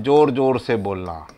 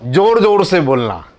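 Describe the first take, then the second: First: Said in the usual way. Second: Loud, forceful teaching emphasis; raised voice, showing what loud means; speaking out loudly. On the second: Shown as a demonstration. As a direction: punch out जोर जोर से बोलना.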